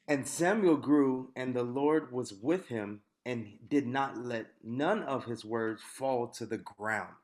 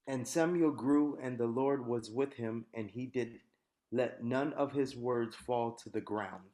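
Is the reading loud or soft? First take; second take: loud; soft. First: It is read with loud, powerful volume. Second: It is read at normal, softer volume.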